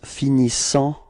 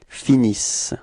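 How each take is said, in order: First: The final nasal vowel ending is pronounced. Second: The word ends on the S sound. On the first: The speaker calls it wrong. "a quite common mistake ... the students pronounce finissant" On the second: The speaker calls it right. "you don't pronounce them. So it's finis"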